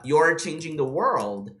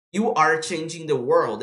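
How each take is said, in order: First: "You're" joined into one word, slow; contracted form. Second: "You are" as two words, slow; full form. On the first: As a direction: merge "you are" into "You're". ("You're" juntado, ainda devagar) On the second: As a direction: say "You are" unmerged and measured. ("You are" separado, devagar) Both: Shown as a demonstration. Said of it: "Ele fala".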